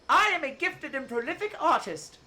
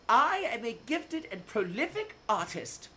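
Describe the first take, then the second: First: It is said more loudly. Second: It is said at normal volume.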